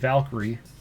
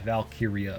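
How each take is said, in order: First: The name ends with an 'ee' sound. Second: The name ends with an 'ee-uh' sound. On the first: The speaker calls it wrong. "I thought it was Valkyrie" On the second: The speaker calls it right. "oh yeah, Valkyria"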